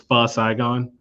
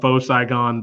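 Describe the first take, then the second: First: The first word is said like 'fuh'. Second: The first word is said like 'foe'. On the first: This is the proper way of saying it. The speaker calls it right. "the correct pronunciation is" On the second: This is the speaker's habitual way of saying it. The speaker calls it wrong. "I call it"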